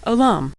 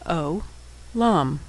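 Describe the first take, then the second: First: Said in the usual way. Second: Syllable by syllable. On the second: Shown as a demonstration. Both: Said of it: "and final mem".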